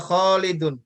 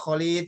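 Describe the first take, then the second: First: The name ends with an added -un sound. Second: The name ends without an added -un sound. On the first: The speaker calls it right. "Dia baca Khalidun" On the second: The speaker calls it wrong. "Jangan dibaca Khalid gitu"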